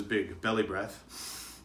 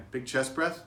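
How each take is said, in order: First: Loose belly voice. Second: Tight chest voice. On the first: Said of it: "how much looser it sounds". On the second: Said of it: "hear how tight it sounds". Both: Shown as a demonstration.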